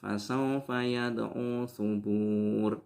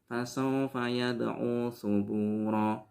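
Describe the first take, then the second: First: The last word ends without a final vowel. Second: The final vowel of the last word is short. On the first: "Apalagi dibaca sukun" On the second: "Tidak boleh dibaca cuma"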